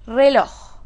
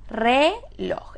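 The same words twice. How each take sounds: First: Said in the usual way. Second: "Reloj" split into re and loj; syllable by syllable. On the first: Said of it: "¿Qué tenemos acá?". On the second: Shown as a demonstration. Teacher asking where the accent falls, syllable by syllable. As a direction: say "Reloj" as two separate syllables. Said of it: "¿Es reloj o es reloj?".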